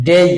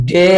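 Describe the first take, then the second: First: ডেই gliding e to i; correct pronunciation. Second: ডে with one pure e; long unglided vowel in ডে; rejected pronunciation. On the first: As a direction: say ডেই as "dei". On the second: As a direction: say ডে without a glide. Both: Shown as a demonstration. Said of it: "ডে নয়".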